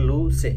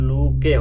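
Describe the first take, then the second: First: The middle consonant is a soft ch sound. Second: The middle consonant is a hard k sound. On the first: The speaker calls it right. "এটা হবে লু সে" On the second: The speaker calls it wrong. "তাহলে লু কে হবে না"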